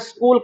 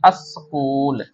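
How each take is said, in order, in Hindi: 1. शब्द सीधे s-k व्यंजन गुच्छ से शुरू होता है। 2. शब्द की शुरुआत में एक स्वर जोड़ा गया है। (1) "इसको उर्दू जबान में स्कूल कहना गलत होगा" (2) "उर्दू जबान में इसको क्या कहेंगे हम, अस्कूल कहेंगे"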